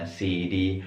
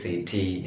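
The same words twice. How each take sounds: First: "city" with the T flapped to a soft D; American flap T. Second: "city" with a crisp T; British T. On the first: Teacher contrasting American city, flapped T. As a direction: say it like "siddy". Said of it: "ada namanya flap T". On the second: Teacher contrasting British and American city, crisp T. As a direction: clear T in the middle of "city". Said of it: "kalau British city". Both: Shown as a demonstration.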